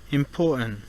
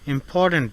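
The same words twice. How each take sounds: First: The t is stopped, followed by a strong n. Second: The t is fully released before the n.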